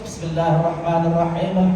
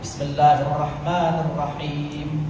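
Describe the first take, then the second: First: It is recited at a fast pace. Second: It is recited at a moderate pace. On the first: "Ada orang yang baca laju" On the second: "baca yang sederhana"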